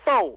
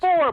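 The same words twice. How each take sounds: First: It is said with a Southern accent. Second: It is said with a standard, non-Southern accent.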